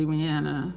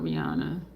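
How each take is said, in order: First: the name with a short A, ree-ANN-uh; middle vowel as in "Anna"; preferred pronunciation. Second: the name with an AH, ree-AH-nuh; middle vowel as in "father"; rejected pronunciation. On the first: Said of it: "I make a point to say Rihanna". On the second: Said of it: "and not Rihanna". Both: Shown as a demonstration.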